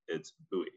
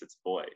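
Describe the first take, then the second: First: It is said the British way. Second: It is said the American way, like boy.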